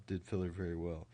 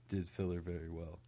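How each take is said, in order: Both takes have the same delivery.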